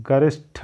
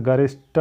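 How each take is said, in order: First: "गरिष्ठ" ending in an aspirated tha; correct pronunciation demo. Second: "गरिष्ठ" ending in an unaspirated ta; wrong pronunciation demo. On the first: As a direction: puff air on the last sound of "गरिष्ठ". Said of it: "होता है". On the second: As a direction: finish "गरिष्ठ" on a hard ta without breath. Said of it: "नहीं होता है". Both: Shown as a demonstration.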